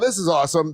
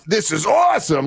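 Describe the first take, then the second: First: It is said flatly, without real enthusiasm. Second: It is said with genuine, lively enthusiasm. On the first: The person does not really like it. "if he just goes, oh, this is awesome, then that's not really awesome" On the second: The person truly likes it. "like he says when he really likes like tequila or something"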